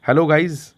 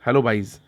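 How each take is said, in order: First: hello गाइज with a hard G, like English guys; cheery classroom hello to गाइज. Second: hello बाइज with a B, rhyming on गाइज; memory-trick hello बाइज, said lower; rhyming pun. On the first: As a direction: say गाइज as guys, playful greeting. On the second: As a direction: swap the G for B in बाइज to make it stick. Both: Shown as a demonstration.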